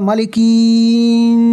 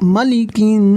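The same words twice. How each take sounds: First: The vowels are stretched out long. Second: The vowels are short and said quickly. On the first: The speaker calls it wrong. "এমনও হবে না" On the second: The speaker calls it right. "তাড়াতাড়ি হবে"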